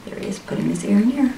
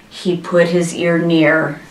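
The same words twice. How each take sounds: First: Soft, quick comment on the story; hushed aside. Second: Said in the usual way. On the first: Real, not acted. Aside repeating the line just read.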